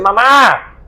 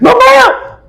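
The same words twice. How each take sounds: First: It is called out in a calm, ordinary way. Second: It is called out with an urgent, alarmed voice.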